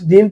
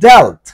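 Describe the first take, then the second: First: The vowel sounds like ee. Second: The vowel sounds like eh. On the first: The speaker calls it wrong. "আমি কিন্তু ডিল্ট ডিল্ট বলতেছি না" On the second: The speaker calls it right. "কিন্তু পরের গুলো ডেল্ট ডেল্ট"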